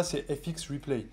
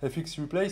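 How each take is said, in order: First: Said in the usual way. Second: "F X Replay" in a light English accent, rising on "Replay"; slight English accent. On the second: Shown as a demonstration. Coach naming the site to students, in a light English accent. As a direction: say "F X Replay" the English way, a touch anglicised. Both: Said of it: "je le dis avec l'accent un peu anglais".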